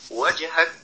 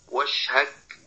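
First: The middle consonant is a clear j sound. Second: The middle consonant sounds like sh. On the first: The speaker calls it right. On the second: The speaker calls it wrong.

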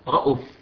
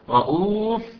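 First: The vowel after the glottal stop is short. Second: The vowel after the glottal stop is lengthened. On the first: This is the reading of Shu'ba. "هيشيل مد البدل" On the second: This is the reading of Hafs. "رؤوف فيها مد بدل عند حفص"

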